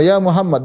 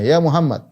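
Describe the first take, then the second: First: Raised, calling the name out; loud call. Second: Said in the usual way. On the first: Retold or imitated. Bedouin calling the Prophet by name, raised voice. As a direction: call the name loudly, not quite a shout. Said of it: "dengan suara lantang". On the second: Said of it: "langsung panggil namanya".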